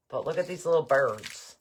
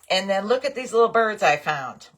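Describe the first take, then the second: First: Said in the usual way. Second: Bright burst of delight, a touch higher and louder; excited. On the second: Real, not acted. Crafter showing viewers her new birds, excited. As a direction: show them off with real glee.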